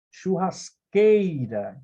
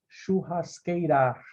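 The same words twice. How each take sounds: First: "Churrasqueira" slowly, with QUEI drawn out; stress on penultimate syllable. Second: "churrasqueirar" stressed wrongly on the final RAR; stress on last syllable. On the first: Teacher shows students the tonic syllable, slow "Churrasqueira" leaning on QUEI. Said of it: "a sílaba que você mais demora". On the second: Teacher shows students what nobody says, "churrasqueirar" with end stress on RAR. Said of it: "a sílaba mais forte é a última". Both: Shown as a demonstration.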